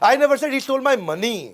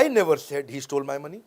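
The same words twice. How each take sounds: First: The stress is on the word money. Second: The stress is on the word I.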